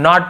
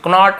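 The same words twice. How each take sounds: First: Said in the usual way. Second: Knot misread with the silent k sounded, "k-not"; wrong pronunciation. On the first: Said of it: "knot पढ़ेंगे इसे". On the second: Shown as a demonstration. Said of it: "knot ऐसे नहीं पढ़ेंगे".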